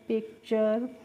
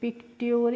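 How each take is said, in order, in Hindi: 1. अंत की आवाज़ 'ch' है। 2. अंत की आवाज़ 't-y' है। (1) "आप आराम से पढ़ लेंगे" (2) "इस तरीके से भी पढ़ सकते हैं"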